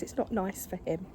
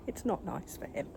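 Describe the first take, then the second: First: Said in the usual way. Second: Softer unvoiced whisper. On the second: Real, not acted. Owner whispering near her agitated cat. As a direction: whisper it so the cat stays calm.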